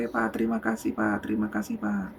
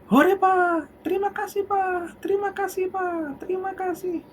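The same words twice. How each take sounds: First: Said in the usual way. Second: Put-on high, gleeful child thanking dad; high child's happy thanks; excited child voice. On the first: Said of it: "si anak bilang seperti ini". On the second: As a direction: bubble over like a delighted little kid. Child thanking father joyfully.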